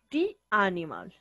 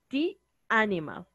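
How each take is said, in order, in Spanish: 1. 'The' se dice con una vocal 'ee' larga. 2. 'The' se dice con una vocal 'ee' larga.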